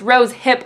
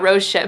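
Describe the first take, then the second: First: The second word starts with an h sound. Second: The second word starts with an sh sound. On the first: The speaker calls it right. "It's rose hip oil" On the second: The speaker calls it wrong. "not rose ship"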